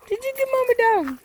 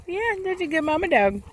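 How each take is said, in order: First: Much higher, squeaky dog praise. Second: Higher, sing-song praise for the dog. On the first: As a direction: lift it way up to coo at the dog. Praising the mother dog again. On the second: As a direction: coo at the good mama dog. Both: Real, not acted.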